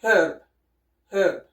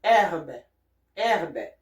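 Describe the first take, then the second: First: "herb" with a breathed H and English vowel. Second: "herbe" with silent H, open E and sounded R; French herbe. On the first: Teacher gives the English for comparison, "herb" with H sounded. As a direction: say "herb" as hurb, twice. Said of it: "in English is". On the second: Teacher models the French word, "herbe" with no H. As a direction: say "herbe" as air-buh, twice. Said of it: "In French is". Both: Shown as a demonstration.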